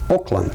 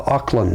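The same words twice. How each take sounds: First: The name sounds very much like Oakland. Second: The name does not sound like Oakland.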